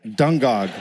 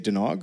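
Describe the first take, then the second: First: The middle g sound is kept. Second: The middle g sound is dropped. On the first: The speaker calls it right. "Fuck that" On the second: The speaker calls it wrong. "get rid of the G and say Dunog"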